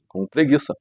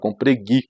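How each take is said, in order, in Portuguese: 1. A palavra é dita por completo. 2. A palavra é cortada antes do fim.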